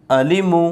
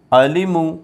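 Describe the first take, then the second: No difference in how they are said.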